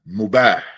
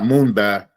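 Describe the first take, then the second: First: No n sound comes before the b. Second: An n sound comes before the b. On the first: The speaker calls it right. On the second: The speaker calls it wrong. "Not Moonbah"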